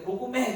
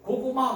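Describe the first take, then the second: First: The last syllable ends in an 'ae' vowel. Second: The last syllable ends in an open 'a' vowel. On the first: The speaker calls it wrong. "고구매 그래가지고 죽었어요" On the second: The speaker calls it right. "고구마 그래야 되는데"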